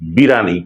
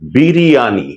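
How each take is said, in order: First: The word is said with three syllables. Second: The word is said with four syllables. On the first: The speaker calls it wrong. "বিরানি শুদ্ধ শব্দ নয়" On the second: The speaker calls it right. "এটি হচ্ছে শুদ্ধ বা প্রমিত উচ্চারণ"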